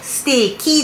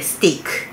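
First: The word ends with a final 'ki' sound. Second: The word ends with a final 'ku' sound. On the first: The speaker calls it wrong. "ステーキじゃなくて" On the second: The speaker calls it right. "ステークですね"

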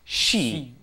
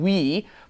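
First: The word starts with a plain 'sh' sound. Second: The word starts with a rounded 'sw' glide. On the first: This is how people actually say it. "it ends up being pronounced she" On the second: This is how the word is written. "It's we is how it's written"

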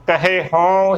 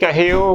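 First: The word is said fully, with every sound. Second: The word is clipped and run together. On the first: The speaker calls it right. "ਭਰ ਕੇ ਬੋਲਣਾ ਹੈ" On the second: The speaker calls it wrong. "ਕਹਿਓ ਗਲਤ ਉਚਾਰਨ ਹੋਵੇਗਾ"

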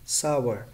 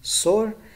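First: The word sounds like 'sour'. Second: The word sounds like 'sore'. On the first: The speaker calls it right. "correct pronunciation is sour" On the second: The speaker calls it wrong. "the incorrect pronunciation is sore"

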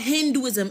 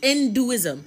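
First: The word begins with an H sound. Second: The word begins with a vowel sound. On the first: The speaker calls it wrong. "it's not called Hinduism" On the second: The speaker calls it right. "with an I"

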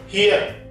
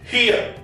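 First: The final r sound is pronounced. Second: The final r sound is silent. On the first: The speaker calls it wrong. "it is not here" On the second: The speaker calls it right. "it is here"

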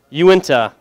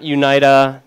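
First: The name is said as 'you-in-tuh'. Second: The name is said as 'you-nee-tuh'. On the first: The speaker calls it right. "Uinta, not Unita" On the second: The speaker calls it wrong. "not Unita"

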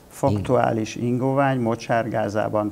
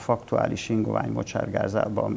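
First: The phrase is spoken more slowly and deliberately. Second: The phrase is spoken at a normal, quicker pace.

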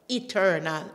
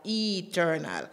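First: The first vowel is short and clipped. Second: The first vowel is long and drawn out. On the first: The speaker calls it right. "short note" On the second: The speaker calls it wrong. "it's not no drawn out E"

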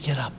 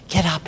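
First: It is said softly and gently. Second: It is said loudly and sharply. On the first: A tender wake-up call with no urgency. "like mommy goes shakes little Johnny to wake up for school" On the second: An urgent demand to get up immediately. "My mom didn't have that tone. She didn't have that volume in her voice"

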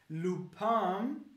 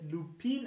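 First: It is pronounced with French sounds. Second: It is pronounced with German sounds. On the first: The speaker calls it right. "Aber es heißt Lupin" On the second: The speaker calls it wrong. "die Deutschen sprechen es Lupin aus"

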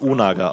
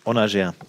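First: The word is said with German-style sounds. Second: The word is said with French-style sounds. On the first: The speaker calls it wrong. "Man spricht es nicht Unaga aus" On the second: The speaker calls it right. "sondern Französisch"

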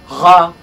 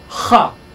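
First: The r is trilled at the back of the throat. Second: The r is a voiceless rasping fricative sound. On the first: "a uvular trill" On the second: "a voiceless velar fricative"

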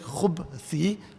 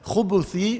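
First: The b is followed by no vowel. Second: The b is followed by a u vowel. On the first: It refers to evil in general. "with the sukun" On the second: It refers to male devils. "with the dhamma"

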